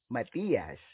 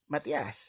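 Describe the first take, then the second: First: The i in the name is long. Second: The i in the name is short. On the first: This is how foreigners usually say it. "Foreigners usually pronounce it with a long I" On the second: This is the name's own pronunciation. "It is pronounced as"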